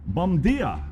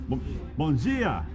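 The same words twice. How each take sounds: First: Bom dia said quickly in a learner's Portuguese; a quick first stab at bom dia; first try. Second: Bom dia redone slowly, nasal Portuguese vowels; slow, self-correcting bom dia; careful retry. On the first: Speaker tries Portuguese, first rough attempt. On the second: Speaker corrects her Portuguese greeting, slowly and carefully. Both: Shown as a demonstration. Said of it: "I'm not doing so well".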